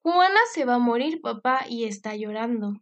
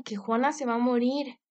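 First: Alarmed cry. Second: Said in the usual way. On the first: Acted. Girl runs to father alarmed.

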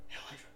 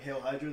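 First: Hushed, voiceless whisper; secretive whisper. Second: Said in the usual way. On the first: Acted. Going up to him with a secret code, hushed whisper. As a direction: breathe it into someone's ear like a password. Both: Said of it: "What did you just whisper in my ear".

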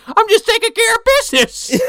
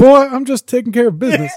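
First: Put-on very high, loud old-coot yell; hammed-up shouted character voice; Grandpa from Terrorvision. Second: High-pitched grandpa, less shouted; playful put-on old-coot voice; Grandpa from Terrorvision. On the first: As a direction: holler it like a cranky movie grandpa. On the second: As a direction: echo the grandpa in a raised country voice. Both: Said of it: "I'm just thinking of Grandpa from Terrorvision".

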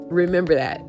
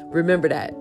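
Both takes have the same delivery.

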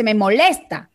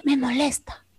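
First: Said in the usual way. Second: Softer, lightly voiced old woman complaining; a hint of a tired grandmother; grandmother's complaint. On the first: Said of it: "Pero si yo tengo una abuelita que dice". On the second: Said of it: "una abuelita que dice". (abuelita quejándose, más suave)

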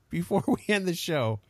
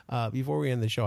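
First: Laughing. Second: Said in the usual way. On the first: Real, not acted. Laughing start, then restarts.

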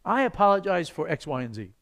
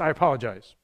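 First: Sincere apology, spelled out item by item; mean it and name each wrong; earnest, careful apology; specific apology. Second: Short, dismissive apology; curt apology. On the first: Shown as a demonstration. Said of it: "Spells it out". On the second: Retold or imitated. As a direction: toss off a bare apology without meaning it. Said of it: "Wouldn't that be better than just".

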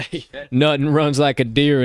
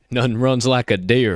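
First: Put-on country accent with a laugh; Southern accent, chuckling through it; southern drawl. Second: Put-on country accent, slow slogan delivery; southern drawl. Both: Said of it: "country accent, my southern drawl".

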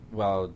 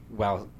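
Both takes have the same delivery.

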